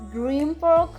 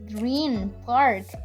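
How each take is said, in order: First: Green ends with an M sound. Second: Green ends with a clear N sound. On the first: The speaker calls it right. "So it is just Green Park" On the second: The speaker calls it wrong. "so I'm not saying like Green Park"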